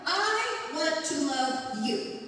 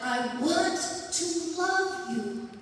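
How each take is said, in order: First: "I" pushed high and slow; stress on I. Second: "want" stretched and falling, "I" light; stress on want. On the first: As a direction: lean hard on the pronoun "I". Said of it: "is stressing the pronouns". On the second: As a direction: lean into the verb "want". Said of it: "Instead of". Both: Shown as a demonstration.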